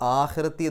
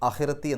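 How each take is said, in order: First: The first vowel is held long. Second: The first vowel is said short. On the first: The speaker calls it right. "അത് ആഖിറത്തി എന്ന് വായിക്കണം" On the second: The speaker calls it wrong. "എന്നല്ല"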